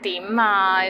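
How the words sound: It is said in an impatient tone. What do you want now? The speaker calls it wrong. "with like without patience"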